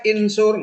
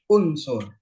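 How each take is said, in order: First: The word begins with an i vowel. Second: The word begins with a u vowel. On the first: The speaker calls it wrong. "Nggak boleh insur" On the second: The speaker calls it right. "harus unsur"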